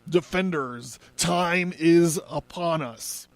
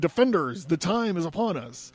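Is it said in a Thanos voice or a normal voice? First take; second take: Thanos voice; normal voice. First: It is said in a Thanos voice. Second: It is said in a normal voice.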